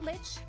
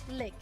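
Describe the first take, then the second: First: The name ends with a 'ch' sound. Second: The name ends with a 'k' sound. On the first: The speaker calls it wrong. "it's not Lich" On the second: The speaker calls it right. "it's allegedly Lick"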